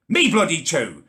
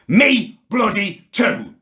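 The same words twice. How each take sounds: First: Said in the usual way. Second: Slow indignant punch on "Me"; slow emphatic. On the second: Acted. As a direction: spell out "Me bloody too" word by word, indignant.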